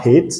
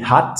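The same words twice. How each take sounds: First: "hate" with the vowel like the letter name A; the wrong reading "hate", ay sound, pitch lifting; long A as counterexample. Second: "hat" with a short open a, not "hate". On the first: Teacher shows what not to say, long a in "hate". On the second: Teacher explains why it is not hate, short a in "hat". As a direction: say "hat" like a French word with a. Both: Shown as a demonstration. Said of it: "on dit pas hate".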